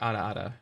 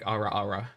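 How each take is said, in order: First: The r is a quick d-like tap. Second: The r is a full English r sound. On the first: The speaker calls it right. "It's like a D, like like they would say like ara ara" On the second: The speaker calls it wrong. "not like ara ara"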